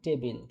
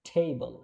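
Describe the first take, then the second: First: The first t sound has no puff of air. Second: The first t sound has a strong puff of air. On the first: The speaker calls it wrong. "আমরা বলি কি টেবিল" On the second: The speaker calls it right. "এটা হবে কি ঠ দিয়ে হবে"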